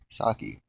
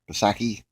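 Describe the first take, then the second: First: The name starts with an S sound. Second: The name starts with a P sound. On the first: The speaker calls it right. "just the P silent. It's Saki" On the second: The speaker calls it wrong. "I used to like, like what is it"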